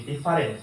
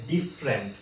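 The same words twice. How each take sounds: First: "ডিফারেন্ট" as di-fa-rent; "ডিফারেন্ট" in three syllables; mistaken pronunciation. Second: "ডিফারেন্ট" as DIF-rent; "ডিফারেন্ট" slowly, in two syllables; correct pronunciation. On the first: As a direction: sound the middle a in "ডিফারেন্ট". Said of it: "ডিফারেন্টটাও ভুল". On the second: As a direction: drop the middle a in "ডিফারেন্ট". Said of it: "এটা হবে". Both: Shown as a demonstration.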